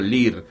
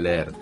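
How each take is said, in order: First: The vowel sounds like a single i. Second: The vowel is a double e sound. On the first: The speaker calls it wrong. "todo lo que tiene doble E se pronuncia como I" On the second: The speaker calls it right. "en lugar de leer"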